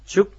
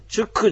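First: The word ends in a held, unreleased final stop. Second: The word ends with a released k and vowel. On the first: The speaker calls it right. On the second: The speaker calls it wrong. "このチュクじゃないんですね。"

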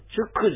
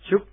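First: The final k is released with a vowel. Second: The final k is a silent breath stop. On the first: The speaker calls it wrong. "このチュックじゃないんですね" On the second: The speaker calls it right. "ほとんど、聞こえないような息を止める発音です"

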